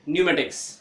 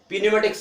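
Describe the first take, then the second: First: The word starts with an n sound, no p. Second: The word starts with a spoken p sound. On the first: The speaker calls it right. "क्या करेंगे, न्यूमेटिक्स" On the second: The speaker calls it wrong. "पी न्यूमेटिक्स नहीं करेंगे"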